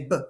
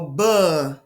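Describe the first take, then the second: First: The b sound is clipped with no vowel. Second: The b sound has an added uh vowel. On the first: The speaker calls it right. "we just say b" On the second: The speaker calls it wrong. "We don't go buh"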